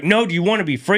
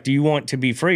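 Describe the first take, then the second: First: Retold urgent question, pitched high; louder, insistent demand. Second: Insistent question, only mildly raised; first, milder urging. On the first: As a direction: push the question hard, voice raised high. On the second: Retold or imitated. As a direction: press the question, still fairly controlled. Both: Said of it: "kept getting louder and louder".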